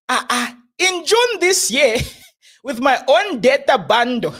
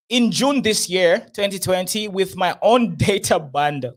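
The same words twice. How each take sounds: First: Mock Nigerian accent. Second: Said in the usual way. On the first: Host mocking the prophet's post in a Nigerian accent. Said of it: "let me do a C R one accent". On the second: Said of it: "Prophet C R one said".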